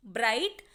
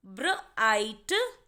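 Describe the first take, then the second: First: Said in the usual way. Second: "bright" drawn out very slowly, sound by sound; slow demo word. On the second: Shown as a demonstration. Teacher to students sounding out a word, very slow. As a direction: stretch "bright" out slowly for the class. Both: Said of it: "ऐसे ही next word देखेंगे".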